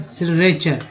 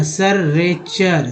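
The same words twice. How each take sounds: First: सिरेचर said as si-re-char, with a short i in the first syllable; a clean fix of the slip: सिरेचर with si, not sar; corrected reading. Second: सररेचर said slowly as sar-re-char, the first vowel as a; a slow slip that reads सिरेचर as सररेचर; wrong first try. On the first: Teacher corrects himself and says सिरेचर properly. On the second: Teacher stumbles, saying सररेचर slowly before correcting. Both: Shown as a demonstration. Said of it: "sorry सिरेचर".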